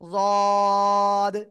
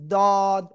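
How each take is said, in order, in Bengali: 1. প্রথম ব্যঞ্জনটি ভারী, জিভের দুই পাশ থেকে হয়। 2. প্রথম ব্যঞ্জনটি সাধারণ d ধ্বনি। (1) "জিহ্বার আগা উপরে দুই দাঁত বা গোড়ায় যেন না লাগে" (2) "এরকম বলা যাবে না"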